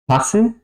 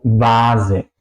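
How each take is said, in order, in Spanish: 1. La palabra empieza con sonido de f. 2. La palabra empieza con sonido de v. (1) "no digo vase" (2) "suena como una eh, W"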